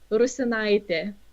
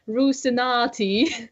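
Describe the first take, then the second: First: The name ends with an 'eye-teh' sound. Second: The name ends with an 'ah-tee' sound. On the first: This is how a native speaker says it. The speaker calls it right. "the proper Lithuanian pronunciation" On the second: Someone unfamiliar with the language said it. The speaker calls it wrong. "she said it like Rusinati, which is quite not very close"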